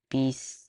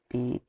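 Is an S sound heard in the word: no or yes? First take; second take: yes; no. First: The word is said with an S sound. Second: The word is said without an S sound. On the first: The speaker calls it right. "Yeah, I do say it" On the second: The speaker calls it wrong. "I don't say the S, do I?"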